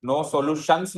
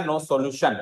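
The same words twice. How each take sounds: First: "no solutions" with the plural s at the end; wrong plural form. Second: "no solution" with no final s; correct singular form. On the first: Teacher showing students the wrong form, plural "no solutions". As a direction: say "no solutions" with a clear final s as the mistake. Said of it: "मत लिख देना". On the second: Teacher giving students the correct form, singular "no solution". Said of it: "no solutions मत लिख देना". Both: Shown as a demonstration.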